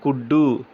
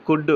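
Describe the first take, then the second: First: కుడ్డు with an added final u; Telugu-style కుడ్డు, ending in "oo"; vowel ending. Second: కుడ్ cut off at the d sound; consonant ending. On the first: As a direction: double the d and end కుడ్డు on a vowel. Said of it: "అచ్చుతో end అవ్వాలి కాబట్టి కుడ్డు". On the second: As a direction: say కుడ్ closed on the final d. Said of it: "English అనేది పొల్లుతో maximum end అవుతుంది". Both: Shown as a demonstration.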